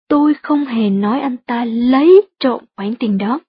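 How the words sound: The stress falls on the words lấy trộm. He only borrowed the money rather than stealing it. "Bạn cũng có thể nhấn giọng ở từ lấy trộm"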